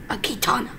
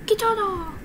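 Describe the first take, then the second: First: A secretive breathy "katana"; whisper. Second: A sudden excited cry of "Katana!"; excited call. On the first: Gamer whispering the weapon name to himself. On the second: Gamer cheering on his new sword. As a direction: blurt out "Katana!" with glee. Shouted repeat of the word. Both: Acted.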